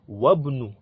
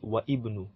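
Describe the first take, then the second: First: The words merge, dropping the second word's first vowel. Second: The second word keeps its own first vowel. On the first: The speaker calls it right. "So it will not be wa ibnu" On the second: The speaker calls it wrong. "it will not be wa ibnu"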